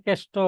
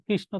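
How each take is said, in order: First: কেষ্ট as kesh-to, r dropped; colloquial distorted pronunciation. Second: Said in the usual way. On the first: Shown as a demonstration. Teacher repeating examples of altered words, কেষ্ট as kesh-to. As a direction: say কেষ্ট with an e and a hard t. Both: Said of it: "বিকৃত উচ্চারণ".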